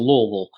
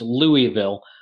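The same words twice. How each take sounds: First: The syllables are blurred and run together. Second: Each syllable is pronounced separately and fully. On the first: This is how locals in the south say it. "you just let it run together into Louisville" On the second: This is how northerners say it. "For for those in the north, that's Louisville"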